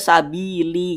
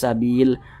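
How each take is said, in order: First: The word ends with an added i vowel. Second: The word ends on a clipped l sound. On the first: The speaker calls it wrong. "Jangan dibaca sabili" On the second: The speaker calls it right. "tapi huruf lamnya disukunkan"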